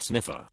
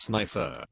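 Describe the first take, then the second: First: Sniffer said SNIFF-er, short i as in sniff; Sniffer, first syllable sniff; wrong name pronunciation. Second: Snifer said SNY-fer, long i as in sniper; Snifer, rhymes with sniper; correct name pronunciation. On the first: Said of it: "Not Sniffer". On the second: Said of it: "It's pronounced Snifer". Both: Shown as a demonstration.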